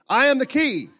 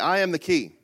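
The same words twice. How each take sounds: First: It is said louder. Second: It is said at normal volume.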